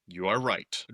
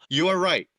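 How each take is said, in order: First: Said in the usual way. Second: "You are right" much higher and louder, with a punch on "are"; an emphatic, loud "You are right". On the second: Shown as a demonstration. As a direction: hit "are" hard and high, conceding emphatically.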